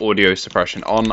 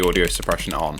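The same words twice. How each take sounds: First: Background keyboard noise is filtered out. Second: Background keyboard noise is left audible. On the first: "this is with audio suppression on" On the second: "this is without the audio suppression on"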